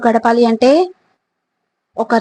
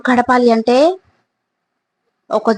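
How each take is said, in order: Both takes have the same delivery.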